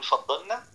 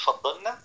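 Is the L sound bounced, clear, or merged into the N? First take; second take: merged; merged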